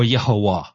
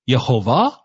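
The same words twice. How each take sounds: First: The middle consonant is pronounced as a w. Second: The middle consonant is pronounced as a v. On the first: "But some will say no, it's wa" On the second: "I prefer to say the way it's just the scriptures are read with va sound"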